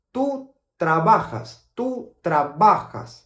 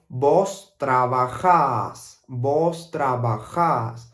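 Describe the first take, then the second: First: "Tú trabajas" at normal pace, stressed on "ba"; plain "Tú trabajas" with "ba" stressed; standard tú form. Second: Slow "Vos trabajás", the last syllable "-jás" long and stressed; Argentine vos form. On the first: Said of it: "we will normally say tú trabajas". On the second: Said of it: "here in Argentina, we will say". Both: Shown as a demonstration.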